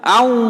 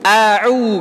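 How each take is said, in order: First: The two vowels run together without a break. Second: A throat catch separates the two vowels. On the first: The speaker calls it wrong. "nggak boleh disambung" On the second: The speaker calls it right. "A dulu baru ain"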